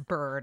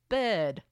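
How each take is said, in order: First: It is said in the speaker's usual accent. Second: It is said in a Liverpool Scouse accent. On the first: "That's bird, in case you Americans couldn't tell" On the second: "how to do a Scouse Liverpool accent. And I had a lot of fun saying things like"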